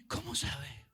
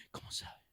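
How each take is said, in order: First: Said in the usual way. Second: Gasp, then a breathless whisper; amazed gasp. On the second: Acted. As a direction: whisper it in stunned awe. Believer amazed by fake prophet. (susurro asombrado con un jadeo)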